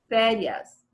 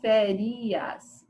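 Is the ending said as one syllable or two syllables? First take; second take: one syllable; two syllables. First: The ending is said together as one syllable. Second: The ending is split into two separate syllables. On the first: The speaker calls it right. "você fala férias. Urias sai junto" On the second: The speaker calls it wrong. "Você não fala férias"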